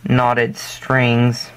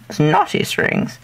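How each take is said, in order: First: Said in the usual way. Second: Put-on playful, slower British accent; mock British accent. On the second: Braider joking about knotted strings, mock British accent. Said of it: "British accent?".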